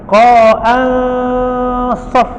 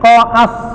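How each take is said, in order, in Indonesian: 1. Huruf n berupa dengung sengau yang tersembunyi. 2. Bunyi n hilang, melebur ke dalam s. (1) "Ini namanya berada antara izhar dan idgham" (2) "Kalau diidghamkan menjadi ko'as"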